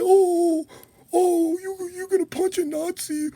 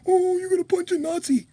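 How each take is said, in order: First: Mock whiny voice. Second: Fake-sobbing mock whine; mocking a critic with fake crying. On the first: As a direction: whine it like a crybaby. Mocking whiny opponents. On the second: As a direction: blubber the line like a crybaby. Mocking whiny opponents, crying.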